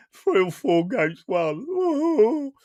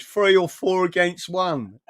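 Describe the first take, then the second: First: Slow mocking echo of "Three or four against one" with a high drawn-out rise; mocking repeat. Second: Slightly slow, raised quote of the guest; quoting Dino. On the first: Mocking Dino's complaint to viewers, slow and sneering. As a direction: stretch it out to ridicule him. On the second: Retold or imitated. Telling viewers how Dino whined about it, slightly slowed. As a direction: repeat his complaint as he said it. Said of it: "He went".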